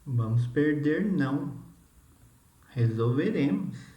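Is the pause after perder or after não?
after não. The pause comes after não.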